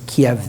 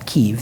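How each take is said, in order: First: The name is said in the older, non-Ukrainian way. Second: The name is said in the Ukrainian way. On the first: This is the name as it was used back then. "It was Kiev then" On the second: This is the Ukrainian form of the name. "the Ukrainian pronunciation"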